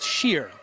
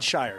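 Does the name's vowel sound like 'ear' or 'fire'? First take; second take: ear; fire. First: The vowel sounds like the one in 'ear'. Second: The vowel sounds like the one in 'fire'. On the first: The speaker calls it right. "pronounced sheer" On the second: The speaker calls it wrong. "not shire"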